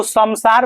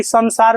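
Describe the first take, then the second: First: संसार pronounced "samsaar", lips closing before the S; M sound in संसार. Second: संसार pronounced "sansaar", tongue-tip N before the S; N sound in संसार. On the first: Teacher offers class the wrong reading of a word, M sound in संसार. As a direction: say संसार with an M, "sam-saar". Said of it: "इसको संसार पढ़िएगा कि संसार पढ़िएगा". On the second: Teacher offers class the right reading of a word, N sound in संसार. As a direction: say संसार with an N, "san-saar". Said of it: "संसार पढ़िएगा". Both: Shown as a demonstration.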